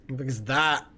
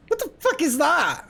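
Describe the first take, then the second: First: Said in the usual way. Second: High, loud disbelief; shocked. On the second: Real, not acted. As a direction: blurt it out, startled. Strange monster appears in game.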